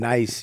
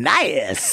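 First: It is said flatly, without excitement. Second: It is said with excitement, like an exclamation.

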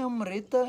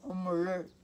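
First: An i vowel follows the r. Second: The r itself is said as the vowel. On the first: This is the southern Indian form. The speaker calls it wrong. "nem Amrita e nem Amruta são... o sul é I" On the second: This is the Sanskrit form. The speaker calls it right. "A palavra é Amr. Esse R é uma vogal dentro do sânscrito"

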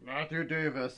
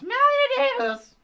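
First: It is said in a low grumble. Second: It is said in a shrill whine.

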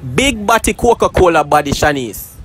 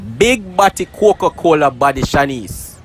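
First: It is said at a normal, quick pace. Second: It is said more slowly.

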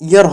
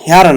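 First: The word begins with a vowel, no h. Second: The word begins with an h sound. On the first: The speaker calls it right. "ইয়ার হবে" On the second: The speaker calls it wrong. "হেয়ার না"

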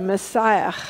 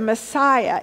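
First: The word ends with a harsh guttural sound. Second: The word ends without a guttural sound.

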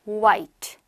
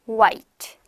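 No difference in how they are said.

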